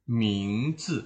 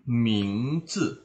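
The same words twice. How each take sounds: The two takes are said the same way.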